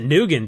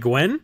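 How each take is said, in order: First: The name is said in two syllables, noo-gan. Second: The name is said in one syllable, gwen. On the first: The speaker calls it wrong. "you don't pronounce it Nugan, do you?" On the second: The speaker calls it right. "surely it's like Gwen"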